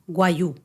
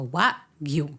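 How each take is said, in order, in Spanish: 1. La g no se pronuncia. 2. La g se pronuncia claramente. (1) "hay mucha gente que dice Wagyu" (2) "no cuesta tanto"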